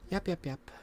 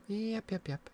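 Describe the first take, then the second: No difference in how they are said.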